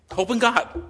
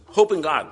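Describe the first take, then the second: First: "Hope in God" again, much higher and louder, proclaimed; emphatic repeat. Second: Said in the usual way. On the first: Acted.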